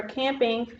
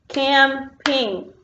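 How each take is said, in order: First: Said in the usual way. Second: "Camping" broken into two beats, cam-ping; split into syllables. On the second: Shown as a demonstration. Teacher clapping syllables with pupils, "Camping" in two separate beats. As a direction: clap out "Camping" slowly, syllable by syllable. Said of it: "clap with me on the syllables".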